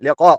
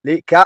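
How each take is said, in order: First: The consonant is a deep throaty q sound. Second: The consonant is a plain front k sound. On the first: The speaker calls it right. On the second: The speaker calls it wrong.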